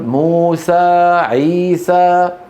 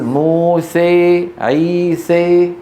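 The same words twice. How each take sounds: First: The final vowel is a pure open 'a'. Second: The final vowel leans toward an 'ee' sound. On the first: "ينطق الألف خالصة" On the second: "يخلط الألف بالياء فيميل"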